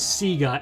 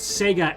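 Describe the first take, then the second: First: Sega is said with an Australian-style vowel. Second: Sega is said with a standard, non-Australian vowel.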